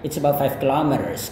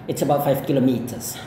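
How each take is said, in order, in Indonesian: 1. Ini diucapkan dengan aksen Amerika. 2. Ini diucapkan dengan aksen Inggris. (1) "aku terbiasa dengan Amerika" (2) "kalau gaya British tentunya"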